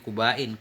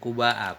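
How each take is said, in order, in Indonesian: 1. Kata "Quba" berakhir dengan bunyi n. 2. Kata "Quba" berakhir dengan glottal stop dan vokal. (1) "Ini Qubain" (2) "ghairu munsharif alamiyah dan hamzah mamdudah"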